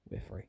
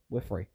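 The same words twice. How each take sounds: First: Near-silent repeat, trailing away; quiet echo. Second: Said in the usual way. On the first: Real, not acted. Player escaping a trap, a soft trailing echo. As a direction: murmur it to yourself as it fades. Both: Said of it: "repeats phrase, second fading".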